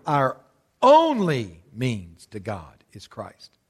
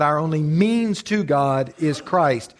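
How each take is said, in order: First: Slow down and hit the word "only" hard; stress on ONLY. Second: Slow line with MEANS as the strongest word; stress on MEANS. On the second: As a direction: lean on the word "means", stretched out slowly. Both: Shown as a demonstration. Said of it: "put the emphasis on a different word".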